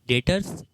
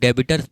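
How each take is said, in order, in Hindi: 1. बीच में 'b' की कोई आवाज़ नहीं बोली जाती। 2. बीच में 'b' की आवाज़ बोली जाती है। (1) "डेटर होता है, बी साइलेंट होता है" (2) "कुछ लोग इसको डेबिटर्स बोलते हैं, डेबिटर्स नहीं होता है"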